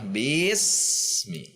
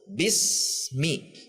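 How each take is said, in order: First: The bi vowel is swung and drawn out. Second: The bi vowel is kept short. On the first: The speaker calls it wrong. "Contoh yang mengayun" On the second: The speaker calls it right. "Bi harus satu"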